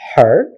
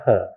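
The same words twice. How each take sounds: First: The word is said fully with a clear vowel. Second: The word is said weakly with a reduced vowel. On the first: "strong form is her" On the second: "the weak form is a or her"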